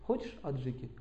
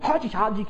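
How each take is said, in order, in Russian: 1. Говорится спокойно, просто. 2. Говорится горячо, с огнём. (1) "Почему вы говорите" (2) "Почему он так говорит? У него преобладает огонь"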